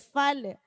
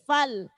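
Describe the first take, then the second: First: The final L is released with a vowel. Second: The final L is held without release. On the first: The speaker calls it wrong. "jangan sampai lepas. Fal, jangan fal" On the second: The speaker calls it right. "tapi fal"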